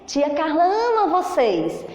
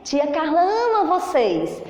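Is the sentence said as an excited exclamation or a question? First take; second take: exclamation; exclamation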